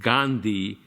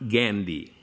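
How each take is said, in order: First: Gandhi is pronounced the Indian way. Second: Gandhi is pronounced the American way. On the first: This is how people from the country say it. The speaker calls it right. "we say Gandhi" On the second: This is how the foreign roommate says it. The speaker calls it wrong. "not Gandhi"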